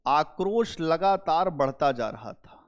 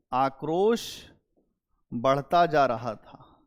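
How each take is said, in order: First: Said in the usual way. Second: Slower, spaced repeat with आक्रोश set apart; slow it down so students can note it; teacher repeating the point for notes; slow dictation. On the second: Shown as a demonstration. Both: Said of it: "यहीं पे लिख लो note".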